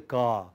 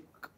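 First: The k is followed by a short vowel. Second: The k is said alone with no vowel. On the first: The speaker calls it wrong. "Don't say ka" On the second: The speaker calls it right. "Just say k"

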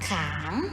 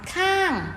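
First: The syllable is said with a rising tone. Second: The syllable is said with a falling tone.

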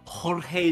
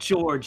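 First: The name is not said like English George. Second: The name is said like English George. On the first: The speaker calls it right. "It's Jorge" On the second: The speaker calls it wrong. "It's not George, you idiot"

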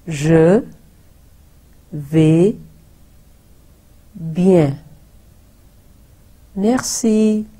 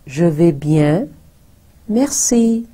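First: It is said slowly. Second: It is said fast.

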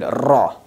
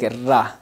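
First: The r sound is heavy and full. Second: The r sound is thin and light. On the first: "this will be bold" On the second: "it will be light"

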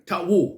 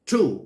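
First: The W is sounded, like 'tuh-woo'. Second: The W is silent; it sounds like 'too'. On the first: The speaker calls it wrong. "เราไม่อ่านว่าทะวู" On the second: The speaker calls it right. "ออกเสียงว่า"

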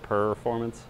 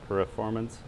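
First: The first syllable sounds like 'per'. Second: The first syllable sounds like 'pro'. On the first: "instead of performance" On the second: "I always say it more like performance"

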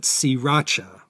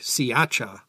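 First: The R sounds in the name are pronounced. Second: The R sounds in the name are dropped. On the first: "It's more correct to call it Sriracha" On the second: "they don't say the R, and it comes out sounding more like Siacha"

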